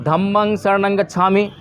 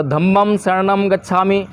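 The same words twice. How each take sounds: First: धम्मं said as "dhammang", closing on ng; Pali pronunciation. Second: धम्मं said as "dhammam", closing on an m; Sanskrit pronunciation. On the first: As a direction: say धम्मं शरणं with ng endings, "dhammang saranang". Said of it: "और हम क्या बोल रहे हैं". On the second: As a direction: say धम्मं शरणं with m endings, "dhammam sharanam". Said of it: "कुछ लोग धम्मम बोलते हैं". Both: Shown as a demonstration.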